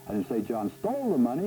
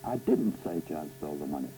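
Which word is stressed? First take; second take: stole; didn't. First: The stress is on "stole". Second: The stress is on "didn't".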